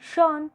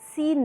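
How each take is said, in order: First: The name starts with sh and rhymes with lawn. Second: The name starts with s and rhymes with seen. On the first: The speaker calls it right. "शॉन pronounce होता है" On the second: The speaker calls it wrong. "सीन नहीं"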